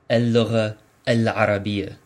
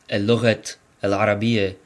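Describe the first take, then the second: First: The first word ends without any t sound. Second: The first word ends with an audible t sound. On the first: The speaker calls it right. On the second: The speaker calls it wrong.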